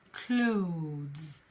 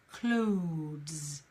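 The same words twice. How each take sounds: First: The word has a single syllable. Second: The same.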